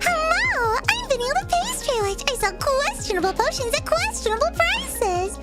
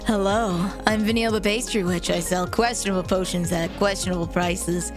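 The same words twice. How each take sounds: First: It is said in a high head voice. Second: It is said in a low chest voice.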